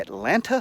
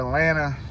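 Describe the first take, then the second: First: Both T sounds are clearly pronounced. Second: No T sound is pronounced at all. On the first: "the correct pronunciation" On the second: "No T's"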